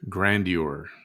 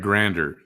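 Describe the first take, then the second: First: The ending is said with the U sounded. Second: The ending is said without the U sound. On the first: The speaker calls it right. "It's E U R at the end. The U isn't silent" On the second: The speaker calls it wrong. "It's not grander"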